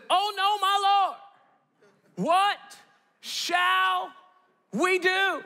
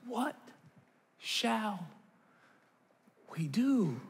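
First: High, drawn-out theatrical cry; dismayed servant. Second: Soft, drawn-out mock despair; hushed, one word at a time with long gaps; helpless resignation. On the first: Acted. Servant to his lord before the army, hammed-up despair. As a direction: wail it word by word, long pauses between. Servant's response, acted with drama. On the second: Parent about kids not doing well in school, quietly helpless.

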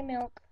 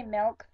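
First: Milk with a short i, "milk"; own pronunciation. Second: Milk as "melk"; other people's pronunciation. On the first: Correcting with own way, milk with ih. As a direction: keep milk on an ih vowel. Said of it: "I say milk". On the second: Mimicking what some people say, milk as "melk". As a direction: open the vowel of milk to an eh. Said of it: "Some people say milk". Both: Shown as a demonstration.

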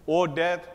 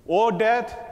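First: Said in the usual way. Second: O death called out high and loud; first O death flung out loud; ringing proclamation. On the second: Acted. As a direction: cry out O death like a challenge. Preacher declaiming scripture.

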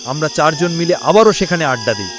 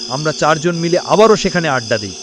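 The two takes are said the same way.

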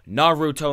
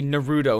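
First: NARUTO with a clear "oo" in the middle, "NAR-oo-toh"; correct pronunciation. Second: Naruto slurred as "nuh-ROO-doh"; mispronunciation. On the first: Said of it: "They say his name". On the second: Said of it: "They never say". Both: Shown as a demonstration.

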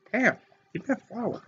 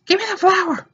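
First: Muttered aside. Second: High whiny "Give me the flower"; whiny demand. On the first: Gamer laughing, quietly muttering the demand. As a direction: mutter "flower" under the breath. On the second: Gamer whining at the screen, high demand. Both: Acted.

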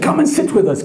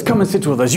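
First: High, welcoming call; welcoming chief. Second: Said in the usual way. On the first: Retold or imitated. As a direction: invite the guest like a chief. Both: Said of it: "the chief said".

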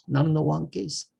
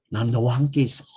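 First: Higher, softer and tender; soft reassuring promise; tender take. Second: Said in the usual way. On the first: Shown as a demonstration. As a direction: say it gently to a loved one. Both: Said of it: "해봐요".

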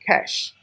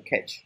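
First: "cash" with a final sh sound; French-derived pronunciation. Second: "catch" with a final tch sound; wrong pronunciation. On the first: Teacher models a French loanword for students, correct "cash" pronunciation. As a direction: say "cash" ending in sh, no t. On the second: Teacher warns students against misreading cache, mistaken "catch" pronunciation. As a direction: say "catch" ending in a hard tch. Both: Shown as a demonstration. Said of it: "不能念catch啊".

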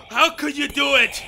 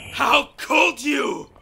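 First: Said in the usual way. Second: Slow shout, stress on "could"; anguished shout. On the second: Acted. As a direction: drag out "How could you?" as a yell. Man accuses alien over his wife.

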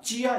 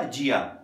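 First: चिया opening on an unvoiced ch; ch variant of the word, चिया. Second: J variant of the word, जिया. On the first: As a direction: say चिया with ch as in chair. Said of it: "इसको चिया pronounce किया जाता है". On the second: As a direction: say जिया with j as in jam. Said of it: "some Chinese को जिया भी pronounce". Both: Shown as a demonstration.

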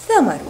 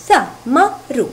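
First: Said in the usual way. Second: ثمر in three short, separate syllables; split into short syllables. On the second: Shown as a demonstration. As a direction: break ثمر into three quick beats with pauses. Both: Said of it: "تتكون من ثلاثة مقاطع قصيرة".

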